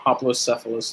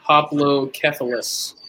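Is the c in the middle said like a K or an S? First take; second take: S; K. First: The middle c sounds like an S. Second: The middle c sounds like a K. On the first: The speaker calls it wrong. "Instead of hoplocephalus" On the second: The speaker calls it right. "Because it's hoplocephalus"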